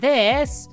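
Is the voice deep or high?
high. The voice is high and light. "I can go from this"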